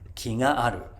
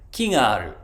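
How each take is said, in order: First: The pitch rises after the first syllable ki. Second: The pitch drops after the first syllable ki. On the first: He likes her. "single beat flat pitch words ... actually go up when they have a particle after them" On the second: There is a tree. "there's a tree"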